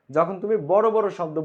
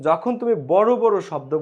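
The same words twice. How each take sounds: The two takes are said the same way.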